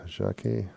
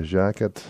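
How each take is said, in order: First: Jacquet said as zha-KAY, French style, no t; softer second try at a name. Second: Jacquet said as JACK-et, English style; first try at a name. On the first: Radio host to listeners retrying the name, quiet zha-KAY. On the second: Radio host to listeners naming an artist, JACK-et, English style. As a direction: say Jacquet as JACK-et, hard t at the end. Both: Shown as a demonstration. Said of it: "I should ask, uh, some of the others how to say that".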